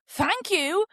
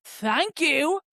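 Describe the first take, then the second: First: Sarcastic thank you, pitched up; mock-polite, sarcastic retort. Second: Mock passive-aggressive thanks; pointed imitation of a grudging thanks; muttered passive-aggressive thanks. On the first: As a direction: throw the thanks back sarcastically. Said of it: "I did kind of sarcastically say". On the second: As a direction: imitate a pointed, higher-pitched thank you. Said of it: "mutters under his breath, "Thank you".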